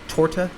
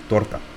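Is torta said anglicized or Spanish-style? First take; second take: anglicized; Spanish-style. First: The word is said with English-style sounds. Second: The word is said with Spanish-style sounds. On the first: The speaker calls it wrong. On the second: The speaker calls it right.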